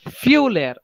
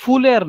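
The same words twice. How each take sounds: First: "Fühler" with a clear ü, like "fyu-ler"; correct umlaut demo. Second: "Fühler" with a plain oo, like "fooler"; wrong vowel demo. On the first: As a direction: glide into the ü of "Fühler", higher pitched. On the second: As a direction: flatten the ü of "Fühler" into u. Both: Shown as a demonstration. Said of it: "Fühler नहीं".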